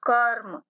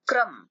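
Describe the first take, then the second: First: कर्म with full क, half र without a vowel; full k pronunciation. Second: क्रम with a quick half क; half k pronunciation. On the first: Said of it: "क को पूरा बोलना है अ मिलाकर". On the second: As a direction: say क्रम, क rushed. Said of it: "क को जल्दी से बोलना है". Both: Shown as a demonstration.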